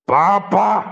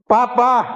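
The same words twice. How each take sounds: First: The voice is very rough and gravelly. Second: The voice is somewhat rough and gravelly. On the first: The speaker calls it right. "lagi kasar lagi ... nah gitu ya" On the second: The speaker calls it wrong. "suara yang kasar"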